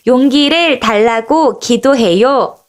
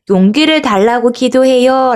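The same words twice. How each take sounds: First: Slow, deliberate group reading; mild read-aloud call. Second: Said in the usual way. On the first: Shown as a demonstration. Teacher reads along with children, slow mild call-out. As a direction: read it out slowly so all can join. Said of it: "큰 목소리로 같이 읽어볼까요". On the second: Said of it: "라고 적혀 있어요".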